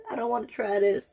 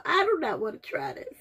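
First: Said in the usual way. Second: Higher, laughing "I do not wanna"; laugh-whine with "do" pushed up; whining through a laugh about tasting it. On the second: Real, not acted. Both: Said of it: "I'm about to start crying".

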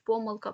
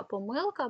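First: Помилка stressed on ПО, the first syllable. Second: Помилка stressed on МИЛ, the middle syllable; stress on second syllable. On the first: Teacher showing students a double stress, помилка stressed on ПО. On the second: Teacher showing students the other allowed stress, помилка stressed on МИЛ. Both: Shown as a demonstration. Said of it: "які мають подвійний".

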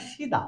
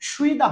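First: সিদা as "shi-da", no glide; higher, softer সিদা with plain "shi"; correct pronunciation. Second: সুইদা with a "shwi" glide; wrong pronunciation. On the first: Teacher correcting the written form, correct pronunciation. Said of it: "সুইদা হবে না". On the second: Teacher showing learners what not to say, wrong pronunciation. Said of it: "হবে না". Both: Shown as a demonstration.

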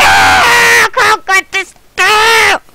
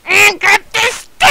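First: Slow, drawn-out triumphant yell; stretched-out shout. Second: Quick excited call. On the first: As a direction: stretch the words out as you cheer. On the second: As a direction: blurt it out happily. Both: Real, not acted.

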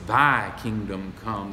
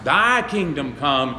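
First: Slow, "Thy" given the weight; stress on thy. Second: Slow, with "Thy" leaned on hard; stress on thy. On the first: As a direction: lean on "Thy" in "Thy kingdom come". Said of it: "That's where the emphasis is". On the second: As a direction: hit "Thy" in "Thy kingdom come". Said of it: "emphasis on thy". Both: Shown as a demonstration.

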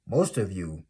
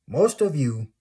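First: Said in the usual way. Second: Higher, louder punch on most of you; raised emphatic call to viewers; emphatic loud repeat. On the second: Real, not acted. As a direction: hit Most of you hard the second time.

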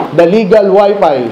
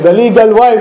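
First: "Wi-Fi" said for "Wife", slowly; slip of the tongue. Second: "Wife" said plainly as wife; corrected title. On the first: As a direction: misread the title as "Legal Wi-Fi". (mabagal na pagkakamali, "Wi-Fi" imbes na "Wife") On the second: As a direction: fix the slip and say "Wife" right. (itinamang bigkas ng "Wife") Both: Real, not acted. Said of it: "Ano yun?".

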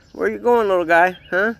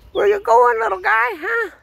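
First: Said in the usual way. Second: High pet talk. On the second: Real, not acted. Owner calling after his running puppy in a much higher voice. Same question, squeaky pet voice.

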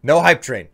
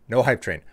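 First: "No hype train" said loud and firm; louder insist. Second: Said in the usual way. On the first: Real, not acted.

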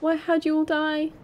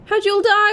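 First: Said in the usual way. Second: High, loud frightened repeat; real fright, higher and louder; scared. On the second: Real, not acted. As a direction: blurt it out spooked. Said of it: "I'm terrified in these woods".

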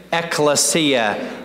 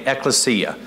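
First: Ekklesia drawn out slowly, every syllable clear, the last vowel held; slow teaching say-along. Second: Said in the usual way. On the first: Shown as a demonstration. Pastor leads the congregation in saying the word, slow and drawn out. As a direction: lead the room through Ekklesia slowly, syllable by syllable. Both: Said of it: "Everybody say it with me".

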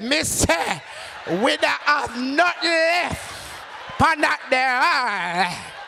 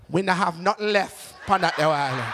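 First: High, very slow Jamaican over-enunciation; exasperated Jamaican server, drawn out and raised; talking to the deaf. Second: Lightly voiced Jamaican server; Jamaican counter lady. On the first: Retold or imitated. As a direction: stretch each word as if she's deaf. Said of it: "act like you're deaf". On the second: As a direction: deliver it in Jamaican Patois, unbothered. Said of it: "she turns to me and says".

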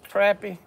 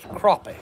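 First: "crappie" with a flat short a, like CRAP-ee; Southern crappie. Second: "crappie" with an open ah, like CROP-ee; Northern crappie. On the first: Showing viewers how the South says it, CRAP-ee. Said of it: "South says crappie". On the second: Contrasting for viewers how the North says it, CROP-ee. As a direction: say "crappie" the Northern way, CRAH-pee. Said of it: "the north says crappie". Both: Shown as a demonstration.

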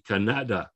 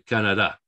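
First: "Canada" as ca-NA-da; "Canada" stressed on the next-to-last syllable; wrong middle stress. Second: "Canada" as CA-na-da, weight up front; Spanish "Canada" stressed on CA, falling away; accent-marked stress. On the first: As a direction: put the weight on NA in "Canada". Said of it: "you put the stress here". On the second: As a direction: hit the first syllable of "Canada". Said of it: "But no, it's telling you". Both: Shown as a demonstration.

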